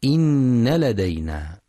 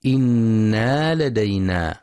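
First: إن with a doubled nun and a short fatha; demonstrating the correct إن; correct reading. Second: إنا with a long alif after the nun; demonstrating the mistaken إنا; wrong reading. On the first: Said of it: "والصواب نون مشددة مفتوحة فقط". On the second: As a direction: say إنا as inna-a, stretching the vowel after the nun. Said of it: "يخطئ من يقرأ بزيادة ألف بعد النون". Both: Shown as a demonstration.

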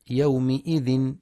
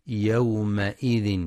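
First: يومئذ read as yawmi-idhin, م with i; the error: put kasra on the م of يومئذ; wrong kasra. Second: يومئذ with an open a on the م, slowly; correct fatha. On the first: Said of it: "فلا يقرأ يومئذ بالكسر". (قراءة خاطئة بكسر الميم) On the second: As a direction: say يومئذ as yawma-idhin, م with fatha. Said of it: "لفتح الميم". (فتح الميم في يومئذ) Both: Shown as a demonstration.

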